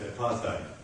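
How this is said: It is said with an American pronunciation. The speaker calls it wrong. "You pronounce it here in the United States of America as"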